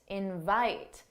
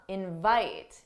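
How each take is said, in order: First: The stress is on the second syllable. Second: The stress is on the second syllable.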